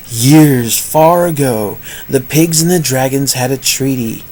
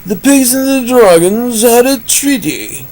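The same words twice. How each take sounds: First: Subdued, drawn-in narrator read; the voice he then drops as strange; muted storytelling tone; odd storyteller voice. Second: Much higher, brighter-placed narrating voice; high put-on narrator voice; different voice. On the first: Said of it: "I don't know why I'm talking like this". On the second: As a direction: switch to a new, higher storyteller voice. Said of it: "How about a different voice?". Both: Shown as a demonstration.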